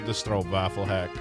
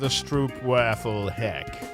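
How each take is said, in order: First: The phrase is pronounced in a normal way. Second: The phrase is pronounced in a deliberately mangled way.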